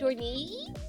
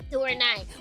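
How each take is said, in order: First: The final syllable sounds like 'nee'. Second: The final syllable sounds like 'nye'. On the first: This is how fans tend to read the spelling. The speaker calls it wrong. "we see N I and then another I, we're like Dorney" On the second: This is the original, correct reading of the name. The speaker calls it right. "which is technically correct"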